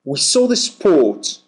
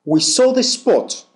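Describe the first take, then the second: First: "sport" with a long aw, r silent. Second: "spot" with a short clipped o. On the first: Teacher showing "sport" against spot to learners, long aw. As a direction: lengthen the vowel of "sport". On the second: Teacher showing "spot" against sport to learners, short o. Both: Shown as a demonstration. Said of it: "Feel the difference".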